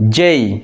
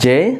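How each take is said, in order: First: The vowel glides from 'e' into 'ee'. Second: The vowel is a short pure 'e' sound. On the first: The speaker calls it right. "This is জেই" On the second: The speaker calls it wrong. "This is not জে"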